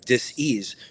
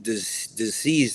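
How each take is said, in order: First: "dis-ease" said as dis then ease, with a small break; dis-ease split in two. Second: Said in the usual way. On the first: Shown as a demonstration.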